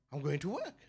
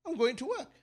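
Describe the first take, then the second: First: Bucky reply. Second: Cheeky retort. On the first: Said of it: "I answer again, but this time a little bit more". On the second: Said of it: "I said". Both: Retold or imitated.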